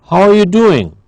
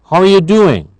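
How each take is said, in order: Both takes have the same delivery.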